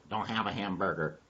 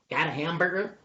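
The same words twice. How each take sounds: First: Low, soft answer; subdued denial. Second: Higher-pitched asking voice; hopeful question. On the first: Dog answers donkey's food question, low soft denial. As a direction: drop the voice for the reply. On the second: Donkey quizzes dog about food, high hopeful question. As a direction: lift it up hopefully. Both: Acted.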